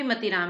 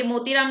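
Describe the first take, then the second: First: मतीराम said with a short "ma", quiet and low; correct name said. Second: मोतीराम said with a long o, as the wrong form; wrong name said. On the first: Teacher corrects the typo for students, मतीराम with a short "ma". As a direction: say मतीराम with a short "muh", set against मोतीराम. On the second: Teacher shows students the wrong name, मोतीराम said with "mo". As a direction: say मोतीराम with a long "mo" to show the mistake. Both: Shown as a demonstration. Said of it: "ये मोतीराम नहीं है भाई".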